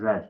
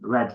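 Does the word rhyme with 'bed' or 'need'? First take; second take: bed; bed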